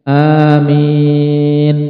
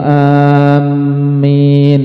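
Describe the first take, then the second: First: Both vowels are drawn out long. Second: The m sound is doubled. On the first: A plea for the prayer to be answered. The speaker calls it right. "dengan mad, yaitu memanjangkan hamzah dan mimnya" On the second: The word comes to mean safety, not a plea. The speaker calls it wrong. "Yang salah adalah ketika mentasydid mim"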